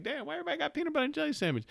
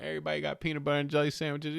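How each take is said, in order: First: Baffled quote. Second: Said in the usual way. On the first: Retold or imitated. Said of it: "You're like". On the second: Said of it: "You go into a restaurant".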